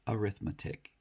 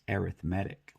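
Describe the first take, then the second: First: The stress is on the second syllable. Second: The stress is on the third syllable. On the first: It names the subject of calculation. "If we're using it like a noun" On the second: It describes something as relating to calculation. "If it's used as an adjective"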